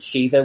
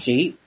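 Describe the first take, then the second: First: The word is said in the older Irish way. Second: The word is said in the modern Irish way. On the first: "I use the pronunciation of Sheetha, which would be an older one" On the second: "The modern Irish pronunciation is she"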